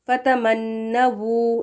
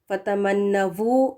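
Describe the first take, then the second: First: The final consonant is a rounded w sound. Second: The final consonant is a v sound. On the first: The speaker calls it right. "डब्ल्यू के साथ सही है" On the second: The speaker calls it wrong. "वी लगाकर पढ़ें ... गलत है"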